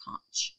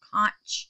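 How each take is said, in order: First: Conch said as a whispered, unsure try. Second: Conch said again in full voice, the ch clear; voiced conch. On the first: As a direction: breathe out conch with the ch soft. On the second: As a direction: say conch out loud and sure. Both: Shown as a demonstration. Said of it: "I think that's how you say it".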